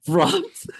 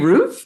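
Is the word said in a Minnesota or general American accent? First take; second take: Minnesota; general American. First: It is said in an imitated Minnesota accent. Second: It is said in a general American accent. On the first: "I heard someone from Minnesota say something up on the rough" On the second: "You mean roof?"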